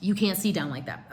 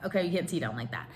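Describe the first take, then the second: First: Said in the usual way. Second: Muttered repeat. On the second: Retold or imitated.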